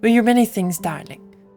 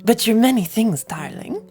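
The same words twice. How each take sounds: First: It is said in the speaker's own voice. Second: It is said in a put-on character voice.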